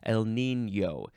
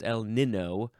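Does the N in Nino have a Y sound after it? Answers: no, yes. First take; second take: yes; no. First: The second N is followed by a Y sound. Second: The second N has no Y sound after it. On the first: The speaker calls it right. "that little accent makes the N sound like it has a Y sound after it" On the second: The speaker calls it wrong. "It's not El Nino"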